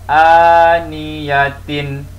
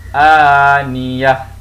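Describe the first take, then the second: First: The word ends with a full tin syllable. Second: The word ends with a silent h sound. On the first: The reader continues without stopping. "Pada asalnya kita akan baca" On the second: The reader stops at this word. "Maka kita akan baca begini"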